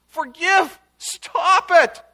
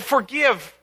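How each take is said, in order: First: Loud, high cry for mercy; pleading outburst, loud and high; bursting plea. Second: A touch louder, higher forgive; understated forgive, recalled; mild retold plea. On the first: Retold or imitated. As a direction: cry out desperately for the people. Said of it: "he bursts out in intercession". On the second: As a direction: echo the plea lightly. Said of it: "Amos said".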